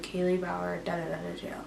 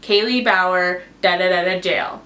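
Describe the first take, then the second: First: Very soft, downcast mumble; depressed. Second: Said in the usual way. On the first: Retold or imitated. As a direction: imitate yourself sounding depressed on a recording. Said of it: "like, depressed". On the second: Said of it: "I had to make a recording".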